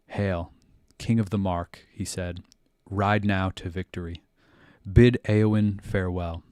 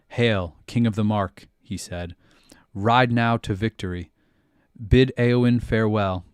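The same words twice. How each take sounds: First: It is read softly and gently. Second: It is read loudly and aggressively.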